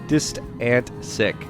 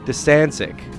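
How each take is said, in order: First: It is said slowly, syllable by syllable. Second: It is said quickly as one run.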